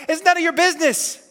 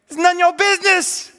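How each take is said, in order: First: A high, pointed rebuke; firm rebuke. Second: A higher, louder repeated rebuke; stronger rebuke. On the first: Jesus rebukes Peter, sharp and pointed. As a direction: shut down the jealous question. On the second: Jesus repeats it to Peter, louder and higher. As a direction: land it harder the second time. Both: Retold or imitated.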